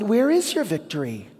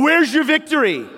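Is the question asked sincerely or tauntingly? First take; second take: sincerely; tauntingly. First: It is asked as a sincere, honest question. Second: It is asked as a mocking, taunting challenge.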